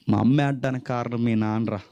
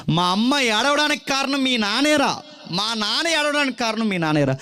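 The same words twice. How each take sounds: First: Said in the usual way. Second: Put-on children blaming a classmate's father for their tears; children's taunt.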